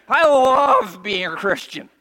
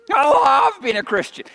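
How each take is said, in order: First: Slow and loud, every word weighed; fervent slow testimony; slow, loud declaration. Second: Preacher shouting his faith; shouted testimony. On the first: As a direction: declare it from the pulpit. Same line said twice. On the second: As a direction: shout it higher and louder. Same line repeated shouted. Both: Acted.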